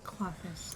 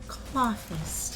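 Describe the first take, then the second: First: It is said weakly and half-heartedly. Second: It is said loudly and with full energy.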